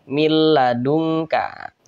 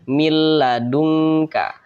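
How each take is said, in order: The two takes are said the same way.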